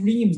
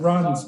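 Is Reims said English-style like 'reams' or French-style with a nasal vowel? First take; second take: English-style; French-style. First: It is said like the English word reams. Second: It is said with a nasal French vowel. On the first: The speaker calls it wrong. "you had to be careful with the mispronunciation" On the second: The speaker calls it right. "It's pronounced Rons"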